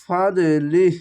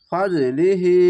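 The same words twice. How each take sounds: First: ফাদলিহ cut off short at the end, not joined on; stopping wrongly. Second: ফাদলিহি with the final হি joined on and sounded; joined reading. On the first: Teacher shows the wrong stop at ফাদলিহ. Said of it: "এখানে ফাদলিহ বলে থামবেন না". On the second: Teacher shows the right joined reading of ফাদলিহি. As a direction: carry ফাদলিহি through to its last হি. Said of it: "লিহি খারজের এক আলিফ টেনে পড়বেন". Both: Shown as a demonstration.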